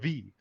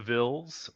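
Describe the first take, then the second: First: The word is said with a French accent. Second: The word is said with an English accent.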